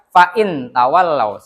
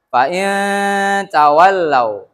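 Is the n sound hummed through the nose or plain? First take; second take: plain; hummed. First: The n sound is plain without a hum. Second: The n sound is held with a nasal hum. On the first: The speaker calls it wrong. "Jangan dibaca ... Salah" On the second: The speaker calls it right. "didengungkan ... Harus dibaca kayak gitu"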